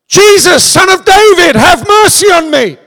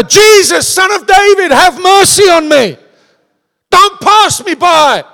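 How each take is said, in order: First: High, loud cry for mercy; desperate shout. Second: High, loud, drawn-out plea; shouting even louder. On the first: Blind beggar shouting to Jesus, loud desperate plea. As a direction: call out across the crowd, begging. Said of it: "Bartimaeus shouted". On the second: Blind beggar shouting over the crowd, louder desperate cry. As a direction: cry out over everyone trying to silence you. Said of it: "He shouted even louder". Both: Acted.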